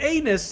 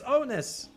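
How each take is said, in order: First: The word begins with an 'ay' vowel sound. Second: The word begins with an 'oh' vowel sound. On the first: The speaker calls it wrong. "with the way you say it, you'll be like" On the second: The speaker calls it right. "It's onus"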